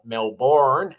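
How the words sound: It is said with an American pronunciation.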